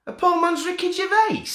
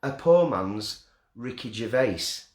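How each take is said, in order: First: The same phrase squealed much higher and louder; gleeful squeal. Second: Said in the usual way. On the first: Shown as a demonstration. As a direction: squeal it out, thrilled with the nickname. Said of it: "I'm having that". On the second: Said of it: "repeats the phrase plainly".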